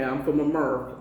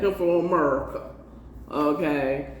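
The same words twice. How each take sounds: First: Said in the usual way. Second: Laughing. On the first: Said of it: "I'm not from Barbados". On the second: Real, not acted. Laughing repeat of own joke.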